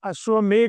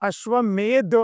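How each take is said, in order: First: The word ends with a 'gh' sound. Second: The word ends with a 'dh' sound. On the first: The speaker calls it wrong. "એમાં અશ્વમેઘ નથી" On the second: The speaker calls it right. "એમાં ગ નથી પણ દ છે"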